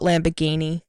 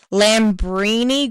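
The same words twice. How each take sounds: First: "Lamborghini" said quickly as lam-ber-GHEE-nee; mistaken band name. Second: "Lambrini" drawn out slowly as lam-BREE-nee; corrected band name. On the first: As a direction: toss off "Lamborghini" as the wrong name, with a hard g. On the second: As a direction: say "Lambrini" slowly, stretching the middle syllable. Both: Shown as a demonstration. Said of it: "not Lamborghini".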